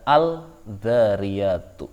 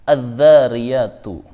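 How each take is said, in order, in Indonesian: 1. Bunyi l jelas dilafalkan sebelum konsonan itu. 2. Bunyi l melebur ke konsonan ganda setelahnya. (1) "Tidak boleh membaca" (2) "Maka cara bacanya"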